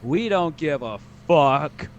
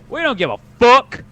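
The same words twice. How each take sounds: First: It is said weakly, with little force. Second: It is said forcefully, with strong energy.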